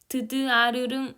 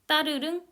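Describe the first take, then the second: First: The first consonant is split into two sounds. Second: The first consonant is one single tense sound. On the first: The speaker calls it wrong. "이거를 드드아르릉 이렇게 발음하는 거 아니잖아요" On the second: The speaker calls it right. "딱 한 번 발음돼요. 하나의 소리로 발음돼요"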